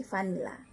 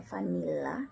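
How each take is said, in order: First: "vanilla" with one short l, fa-ni-la; single L. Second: "vanilla" with a long, held double l; double L, incorrect. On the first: Teacher correcting the reading, "vanilla" with one short l. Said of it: "L double dibaca L". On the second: Teacher showing what to avoid, "vanilla" with doubled l. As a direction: linger on the l in "vanilla", fanil-la. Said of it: "jadi jangan baca vanilla". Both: Shown as a demonstration.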